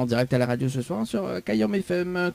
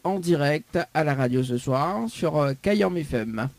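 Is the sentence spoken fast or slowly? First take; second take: fast; slowly. First: The sentence is spoken at a fast pace. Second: The sentence is spoken at a slow pace.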